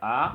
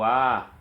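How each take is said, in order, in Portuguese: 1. A vogal é mantida brevemente. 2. A vogal é mantida por mais tempo. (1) "uma vogal breve" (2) "ou longa"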